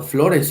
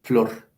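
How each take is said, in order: First: "flores" with the final e sounded; rejected form keeping E. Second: "flor" as one syllable, lower, ending on r; resulting form without E. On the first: Teacher shows the form that did not result, "flores" in two syllables. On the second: Teacher gives the surviving form, low one-syllable "flor". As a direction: say "flor" low, dropping the final e. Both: Shown as a demonstration. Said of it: "no quedó flores, sino flor".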